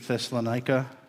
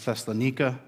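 First: The name is pronounced the usual English way. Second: The name is pronounced the Greek way.

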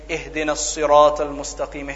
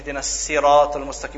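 First: Sirat begins with an emphatic, heavy s sound. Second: Sirat begins with a plain, light s sound.

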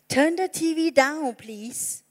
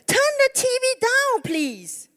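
First: It is said at a normal, quieter volume. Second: It is said louder, with more force.

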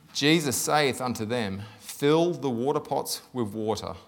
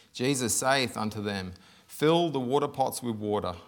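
Both takes have the same delivery.

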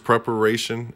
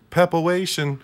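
First: The word is pronounced clearly and fully. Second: The word is garbled with slurred consonants.

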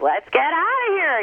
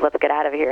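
First: It is delivered in an odd, unusual way. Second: It is delivered in a plain, ordinary way.

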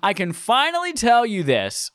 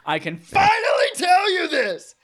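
First: It is read in a flat, plain way. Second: It is read loudly with strong emphasis.

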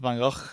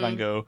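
First: The name is said the native, non-English way. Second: The name is said the usual English way. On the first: "his real pronunciation, which is like, well, Van Gogh, I think is the correct pronunciation" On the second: "so I'm saying Van Gogh"

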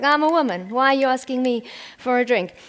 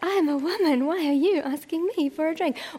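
First: It sounds feisty and defensive. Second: It sounds swooning and insecure.

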